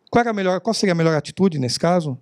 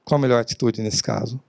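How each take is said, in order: First: Asked as a rhetorical flourish, not waiting for an answer; rhetorical question. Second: Real question. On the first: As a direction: toss it out as rhetoric. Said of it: "Não é retórica". (pergunta retórica) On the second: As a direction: ask it for real and wait. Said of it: "agora é uma pergunta". (pergunta de verdade, mais baixa) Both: Shown as a demonstration.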